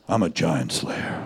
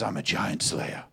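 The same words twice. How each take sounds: First: It is said in a put-on, deep, smooth voice. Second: It is said in a natural speaking voice.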